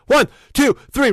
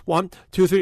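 First: Louder, higher count to wake the voice up; raised voice. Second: Said in the usual way. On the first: Shown as a demonstration. Warming up before a late-night call, loud raised count. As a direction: push the voice up and out on each number. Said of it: "raise my voice". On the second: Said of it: "count three seconds".

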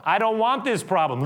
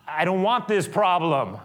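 First: Louder, higher repeat of the complaint; exasperated Pilate. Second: Loud, high fed-up complaint; exasperated Pilate. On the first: Pilate insisting he refuses the problem, higher still. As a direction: say it again with more force. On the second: Pilate refusing the problem, loud and high. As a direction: push the problem away. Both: Acted. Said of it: "is now going".

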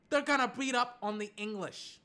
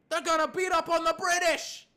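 First: Said in the usual way. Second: High, loud battle-cry prediction; loud hype. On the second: Real, not acted. American fan predicts beating the British, loud and hyped. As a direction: shout it like a rallying fan.

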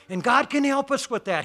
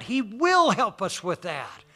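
First: CAN lifted as the prominent word; stress on CAN. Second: WILL drawn out slowly; slow right down to land hard on "will"; stress on WILL. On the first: Preacher assuring the congregation of God's help, stress on CAN. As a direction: lean on "can", letting the rest fall. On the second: Preacher promising the congregation God's help, stress on WILL. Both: Real, not acted.

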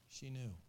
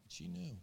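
First: A quiet, settled echo of "She knew"; quiet repeat. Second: "knew" lifted high but soft, falling at the end; a soft high stress on "knew"; emphatic knew. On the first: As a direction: repeat "She knew" softly in your own pitch. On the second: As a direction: say "She knew" with a high, hushed "knew". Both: Shown as a demonstration.

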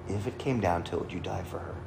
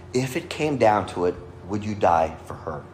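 First: Soft, lowered voice on the question; hushed repeat. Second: Said in the usual way. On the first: Retold or imitated. Pastor putting a grave question to the groom, hushed. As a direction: let the question drop away quietly.

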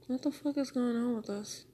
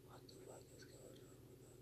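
First: Said in the usual way. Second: Barely audible whisper to oneself; very hushed, voiceless whisper. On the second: Real, not acted. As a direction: whisper the question under your breath. Same question repeated in whisper.

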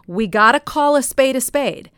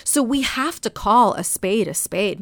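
First: Blunt Jersey accent, higher and louder. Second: Said in the usual way. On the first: Shown as a demonstration. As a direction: lay it down bluntly, Jersey style. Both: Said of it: "this is a little bit of Jersey Blunt here".

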